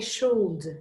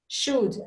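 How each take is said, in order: First: The word is said with an L sound. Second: The word is said with no L sound. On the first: The speaker calls it wrong. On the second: The speaker calls it right.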